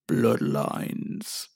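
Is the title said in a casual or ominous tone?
ominous. The title is said in a dark, ominous tone. The episode seems frightening. "not as scary as I made it sound"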